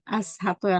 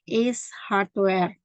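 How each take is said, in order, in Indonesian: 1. Kata pertama terdengar seperti 'as' dengan 'ah'. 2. Kata pertama terdengar seperti 'ace' dengan 'ay'. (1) "bukan As Hardware" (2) "tapi Ace Hardware"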